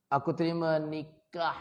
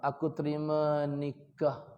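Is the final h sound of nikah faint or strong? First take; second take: strong; faint. First: The final h of nikah is strong. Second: The final h of nikah is faint. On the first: The speaker calls it right. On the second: The speaker calls it wrong. "belum tepat lagi"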